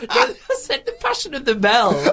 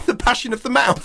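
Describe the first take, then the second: First: High, slow, laughing correction; high squeaky mock protest; mock indignant. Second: High mocking repeat; mocking echo. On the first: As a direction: pretend to insist, giggling. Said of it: "I thought you said".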